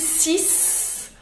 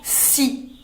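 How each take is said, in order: First: The final s sound is pronounced. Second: The final s sound is silent. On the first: The speaker calls it wrong. "on ne dit plus six" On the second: The speaker calls it right. "on dit tout simplement si"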